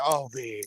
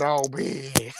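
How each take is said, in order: First: Breathy whispered gasp of disbelief, low; shocked whisper. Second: Low stunned reaction. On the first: Whispering to viewers about the gossip, stunned whisper. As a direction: whisper it like you can't believe the tea. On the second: Repeating the reaction to viewers, low stunned voice. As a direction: drop much lower, voiced, dragged-out disbelief. Reacting to shocking gossip again. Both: Real, not acted.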